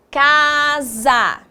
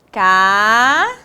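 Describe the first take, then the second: First: Said in the usual way. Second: "Casa" split into long rising "Ca", pause, "sa"; syllable by syllable. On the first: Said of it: "Próxima palavra foi o quê?". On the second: Shown as a demonstration. Teacher dictating as pupils write, "Casa" in separated syllables. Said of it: "Separe-as em sílabas".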